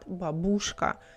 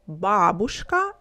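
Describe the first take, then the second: First: The stress is on the second syllable. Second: The stress is on the first syllable. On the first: The speaker calls it wrong. "not бабушка" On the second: The speaker calls it right. "The stress in Russian we pronounce on the first part"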